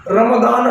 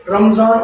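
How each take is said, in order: First: रमदान with d in the middle; रमदान pronounced Arabic-style, d for z; Arabic form. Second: रमजान with z in the middle; रमजान pronounced Urdu-style, z for d; Urdu form. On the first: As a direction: contrast it by saying रमदान with a d. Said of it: "रमदान अरबी में सही है". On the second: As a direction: contrast it by saying रमजान with a z. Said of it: "रमजान Urdu में सही है". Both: Shown as a demonstration.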